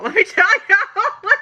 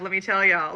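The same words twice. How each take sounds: First: High squeaky repeat. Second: Said in the usual way. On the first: Acted.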